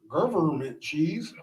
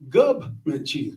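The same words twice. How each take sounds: First: Government is said with all its syllables. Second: Government is said as 'gubment', with a B. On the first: The speaker calls it wrong. "if you say government cheese, just know we low key want to stab you" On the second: The speaker calls it right. "one other pronunciation that's acceptable, and that's government cheese with a B"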